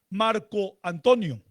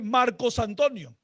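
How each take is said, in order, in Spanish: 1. La primera palabra termina sin sonido s. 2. La primera palabra termina en sonido s. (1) "Entonces la gente dice Marco Antonio" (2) "Queda muy difícil para nosotros o no suena tan, tan agradable"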